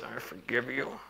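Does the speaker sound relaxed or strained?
strained. It is said tightly in a strained, grudging tone. The forgiveness is given reluctantly. "It was one of those"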